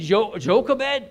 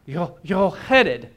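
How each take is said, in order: First: It uses plain English consonants with an English J. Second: It uses throaty Hebrew consonants and a rolled R. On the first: "I would say Jochebed" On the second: "You have to cough a K, swallow an H, and roll an R"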